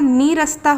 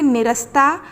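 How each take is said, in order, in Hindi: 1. पहला स्वर लंबा ee है। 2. पहला स्वर छोटा i है। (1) "ना में बड़ी ई की मात्रा का प्रयोग होगा" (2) "निरस्ता नहीं होता"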